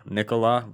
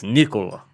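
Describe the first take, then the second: First: "Nikola" with an open "ah" ending; wrong pronunciation. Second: "Nikola" with a round "o" and short "uh" ending; corrected pronunciation. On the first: Retelling the correction of the name, "Nikola" said the wrong way with "lah". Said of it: "No, it's not that". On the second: Correcting how people say the name, "Nikola" as NIK-o-luh. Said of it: "No, it's not that. It's Nikola". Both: Retold or imitated.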